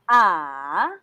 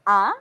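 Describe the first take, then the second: First: The pitch dips down first, then rises. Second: The pitch rises quickly from low to high. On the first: "using third tone" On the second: "it's like we're asking, very quick"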